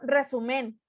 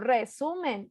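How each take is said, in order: First: The stress is not on the middle syllable. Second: The stress is on the middle syllable. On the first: The speaker calls it wrong. "no digo resumen" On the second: The speaker calls it right. "digo resumen"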